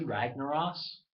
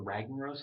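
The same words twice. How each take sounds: First: "Ragnaros" drawn out, rising higher; first pronunciation variant. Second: "Ragnaros" said more quickly, less raised; alternative pronunciation. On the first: Gamer offering one pronunciation of the boss name, "Ragnaros" drawn out. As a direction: stretch "Ragnaros" slowly with a lifted ending. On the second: Gamer offering another way to say the boss name, "Ragnaros" said compactly. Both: Shown as a demonstration. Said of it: "however you wanna say it".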